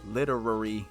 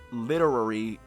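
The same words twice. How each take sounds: The two takes are said the same way.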